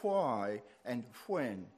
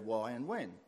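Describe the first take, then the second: First: The words have an old-fashioned pronunciation. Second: The words have a modern everyday pronunciation. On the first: The speaker calls it right. "when I was a child, we were taught to say why and when" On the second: The speaker calls it wrong. "people today just say why and when. They're wrong"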